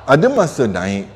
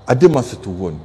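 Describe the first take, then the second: First: "naik" lifted in pitch; rising tune. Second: "turun" dropped lower; lower, falling end on "turun"; falling tune. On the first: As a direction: let the voice climb on "naik". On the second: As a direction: let the voice sink on "turun". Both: Shown as a demonstration.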